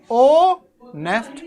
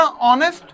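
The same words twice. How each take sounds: First: ओनेस्ट split slowly as ओ, नेस्ट; syllable by syllable. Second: Said in the usual way. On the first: Shown as a demonstration. Teacher showing two syllables to students, ओनेस्ट broken into ओ - नेस्ट. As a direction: hold the ओ, pause, then नेस्ट. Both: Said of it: "इसी तरह".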